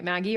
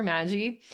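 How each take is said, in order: First: "Maggie" with a hard g, as in bag; hard g pronunciation. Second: "Maggie" with a soft g, like Madgie; soft g pronunciation. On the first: Host checking a viewer's name, "Maggie" with hard g. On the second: Host offering another reading of a viewer's name, "Maggie" with soft g. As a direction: say "Maggie" with the g of gem. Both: Shown as a demonstration. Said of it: "hopefully I'm pronouncing your name right".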